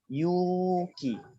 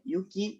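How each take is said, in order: First: The first vowel is held long. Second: The first vowel is kept short. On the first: It means courage. "maka bacanya panjang" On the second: It means snow. "Kalau Yuki aja pendek"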